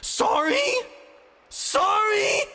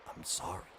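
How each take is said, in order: First: Very high, loud incredulous howl; outraged screamed sorry. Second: Soft, quiet broken apology; a withered man's quiet sorry; hoarse apology. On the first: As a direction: throw his word back at him screaming. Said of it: "the mechanist howled". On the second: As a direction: barely get the words out. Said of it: "voice grew hoarse". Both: Acted.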